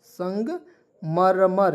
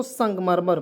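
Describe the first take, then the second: First: संगमरमर very slow, broken into parts; syllable by syllable. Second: Said in the usual way. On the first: Shown as a demonstration. Teacher dictating the Hindi word for marble, syllable by syllable. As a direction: say संग, pause, then a drawn-out मरमर.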